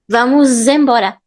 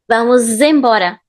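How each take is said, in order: First: The linking z sound is strongly exaggerated. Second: The linking z sound is strongly exaggerated.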